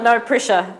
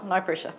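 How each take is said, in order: First: "No" pushed out louder, teasing the last two; teasing no pressure. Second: Softer repeated tease. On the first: Host teasing the last two panellists, louder playful jab. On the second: Host repeating the tease to panellists, soft wry aside. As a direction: murmur "no pressure" under your breath. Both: Real, not acted.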